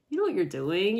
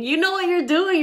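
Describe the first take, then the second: First: Said in the usual way. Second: High, loud teasing; teasing, louder. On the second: Shown as a demonstration. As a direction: tease them, much higher and louder.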